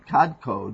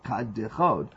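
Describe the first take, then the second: First: The word is said with two syllables. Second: The word is said with three syllables. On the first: The speaker calls it right. "it should be kadchod" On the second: The speaker calls it wrong. "pronounced with three syllables"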